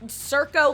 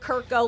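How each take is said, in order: First: The name begins with a soft s sound. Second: The name begins with a hard k sound. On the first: "like circus" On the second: "like Captain Kirk"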